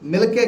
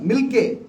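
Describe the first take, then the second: First: A short vowel separates the l and k. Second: The l joins the k with no vowel. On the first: The speaker calls it wrong. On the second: The speaker calls it right.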